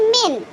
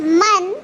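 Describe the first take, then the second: First: "min" with a short i vowel; dialect pronunciation. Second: "man" with an open a vowel; MSA pronunciation. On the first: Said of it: "but in dialect we say". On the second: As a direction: say "man" with an a, the formal Arabic way. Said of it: "M S A". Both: Shown as a demonstration.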